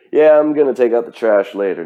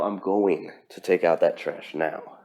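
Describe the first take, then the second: First: Loud, casual, noncommittal brush-off; lazy put-off promise. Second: Said in the usual way. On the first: Retold or imitated. Imitating someone who keeps delaying, said loud and casual. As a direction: toss it off like a chore you'll skip.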